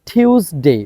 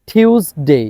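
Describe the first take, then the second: No difference in how they are said.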